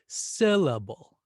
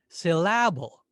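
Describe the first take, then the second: First: The stress is on the first syllable. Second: The stress is on the second syllable. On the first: The speaker calls it right. "let's stress syllable. We'll exaggerate it" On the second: The speaker calls it wrong. "What if we stressed the second syllable?"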